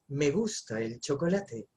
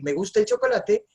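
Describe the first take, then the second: First: It is said in a sexy, sensual voice. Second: It is said in a plain, ordinary voice.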